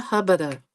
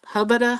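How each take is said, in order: First: Lingering hubbada. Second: "hubbada" tossed out high and quick; excited, higher "hubbada"; eager hubbada. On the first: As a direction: savour the second "hubbada." like a flirty sigh. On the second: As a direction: admire the husband with a first bright "hubbada". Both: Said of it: "Like, hubbada, hubbada".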